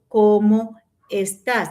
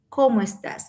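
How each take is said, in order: First: The two words are said separately. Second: The two words are joined together. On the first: The speaker calls it wrong. "nosotros no decimos" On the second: The speaker calls it right. "Nosotros necesitamos pegar"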